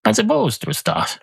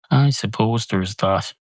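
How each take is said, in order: First: High musing. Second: Said in the usual way. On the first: Real, not acted. Muses aloud, then repeats line.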